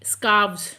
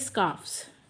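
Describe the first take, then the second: First: The plural ends with a v sound. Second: The plural ends with an f sound. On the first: "एफ को remove करके वी E S add करके" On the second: "S add कर दीजिए"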